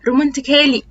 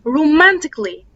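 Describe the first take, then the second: First: The vowel before the final L is fully pronounced. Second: The vowel before the final L is silent. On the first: The speaker calls it wrong. "معظم الناس بتقول" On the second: The speaker calls it right. "ال A ما بتتنطقش"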